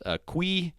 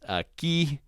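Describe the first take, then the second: First: The u is pronounced after the q. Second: The u after the q is silent. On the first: The speaker calls it wrong. "that's not" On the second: The speaker calls it right. "the U is silent"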